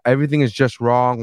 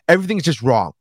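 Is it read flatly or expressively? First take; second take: flatly; expressively. First: It is read flatly, like a plain read-through. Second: It is read expressively, with strong emphasis.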